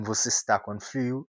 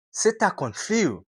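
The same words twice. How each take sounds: First: Said in the usual way. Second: "tá" clipped and você as se, higher; quick native você tá com frio; reduced tá. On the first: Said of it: "ele vai dizer". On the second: Shown as a demonstration. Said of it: "Mas ele diz". ("tá" curto e "você" como "se")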